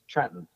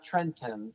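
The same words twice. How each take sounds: First: The second T is dropped. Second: The second T is clearly pronounced. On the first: "I don't pronounce second T's" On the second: "it's not Trenton"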